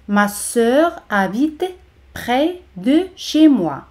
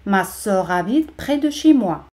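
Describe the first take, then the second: First: "Ma sœur ... habite ... près ... de ... chez moi", slowly; slow teacher's model with pauses in "près de chez moi"; slow, separated words. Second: Said in the usual way. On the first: Shown as a demonstration. Slow model before normal-speed take.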